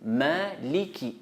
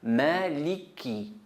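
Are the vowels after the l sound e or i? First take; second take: i; i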